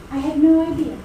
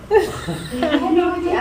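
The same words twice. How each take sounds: First: Laughing. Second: Slow, laughing repeat of the same line. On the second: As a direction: let the laugh stretch the words out. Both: Real, not acted. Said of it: "laughing while telling the story".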